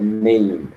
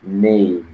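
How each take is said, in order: The two takes are said the same way.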